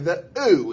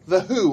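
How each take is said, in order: First: It is said in a West London accent, H dropped. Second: It is said in a plain accent, H pronounced.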